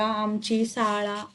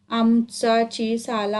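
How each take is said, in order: First: "आमची साळा" slow, softer and monotone; drawn-out corrected reading. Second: "आमचाची साला" dragged out in a slow monotone; stumbling syllable-by-syllable reading. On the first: Boy corrects the lesson title, "आमची साळा", slowly. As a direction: stretch "आमची साळा" out as whole words. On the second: Boy misreads the lesson title, "आमचाची साला", haltingly. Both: A narrator's reading.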